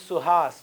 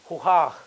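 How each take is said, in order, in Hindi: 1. नाम की शुरुआत और अंत दोनों s ध्वनि से होते हैं। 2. नाम की शुरुआत और अंत दोनों h ध्वनि से होते हैं। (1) "Name is Suhas" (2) "they will say Huhah"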